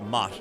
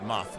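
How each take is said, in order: First: The word ends with a plain T sound. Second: The word ends with a TH sound. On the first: "I would pronounce it mot" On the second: "You would be moth with a TH, like all proper"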